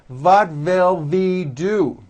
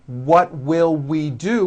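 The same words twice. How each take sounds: First: Put-on What will we do? as "vat vill ve do", German accent, slow; mock a German speaker swapping W for V; German accent, What will we do? with V sounds. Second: What will we do? with clean W sounds; What will we do?, rounded lips on each W; correct W. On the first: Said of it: "they may say". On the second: Shown as a demonstration. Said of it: "which is correct".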